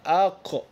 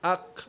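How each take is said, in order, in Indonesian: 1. Huruf q terakhir dilepas dengan pantulan yang bergema. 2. Konsonan terakhir berhenti mendadak tanpa pantulan. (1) "kena ada qalqalah" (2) "itu salah"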